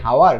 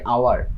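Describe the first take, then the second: First: The word starts with an audible h sound. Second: The word starts with a vowel sound. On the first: The speaker calls it wrong. "এটার উচ্চারণ কিন্তু হাওয়ার না" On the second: The speaker calls it right. "আমরা উচ্চারণ করি আওয়ার"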